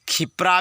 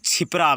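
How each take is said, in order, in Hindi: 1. शब्द की शुरुआत kh ध्वनि से होती है। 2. शब्द की शुरुआत ch ध्वनि से होती है। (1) "इसको खिप्रा भी कहते हैं ... ऐसे उच्चारण मत करो भाई" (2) "छिपरा भी कहते हैं ... ऐसे उच्चारण मत करो भाई"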